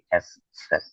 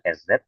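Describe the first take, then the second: First: The second part begins with an s-like sound. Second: The second part begins with a z sound. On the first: The speaker calls it right. "tapi S set" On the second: The speaker calls it wrong. "dibacanya bukan S Z"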